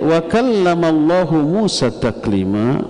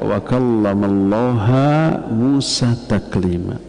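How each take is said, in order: First: The word Allah ends with a 'u' vowel. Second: The word Allah ends with an 'a' vowel. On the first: God spoke to Moses. The speaker calls it right. "artinya Allah berbicara kepada Nabi Musa dengan sebenar-benarnya" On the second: Moses spoke to God. The speaker calls it wrong. "Allahnya dibaca ha mansub"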